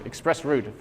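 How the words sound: It is said in a European pronunciation. "for the Europeans in the room"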